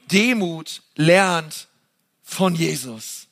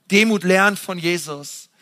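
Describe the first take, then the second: First: Slow, weighty and deliberate, each word set apart; slow solemn sermon emphasis. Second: Said in the usual way. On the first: Acted. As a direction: lay the words down slowly, as the key thought. Preacher slowly stresses key phrase.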